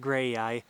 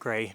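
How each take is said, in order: First: The name ends with an 'eye' sound. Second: The name ends without an 'eye' sound. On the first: "not gray-eye gray" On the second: "not gray-eye gray"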